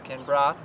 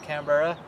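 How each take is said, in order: First: The ending of the name is clipped short. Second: The ending of the name is said in full. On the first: This is how locals say it. The speaker calls it right. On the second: This is how Americans say it. The speaker calls it wrong. "as Americans say, it's not Canberra"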